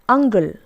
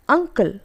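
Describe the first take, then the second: First: The middle consonant is a G sound. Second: The middle consonant is a K sound. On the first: The speaker calls it wrong. "some people pronounce this as ungle. Instead of k, we use g" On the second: The speaker calls it right. "The correct form is uncle"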